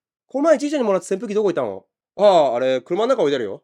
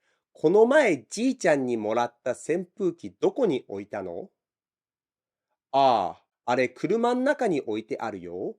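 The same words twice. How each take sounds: First: Very fast, blurred casual Japanese; fast casual speech. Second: Clearer version. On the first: Family asking about a fan, very fast casual exchange. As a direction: rattle it off like native chat. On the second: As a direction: spell each word out more. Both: Shown as a demonstration. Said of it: "I just said".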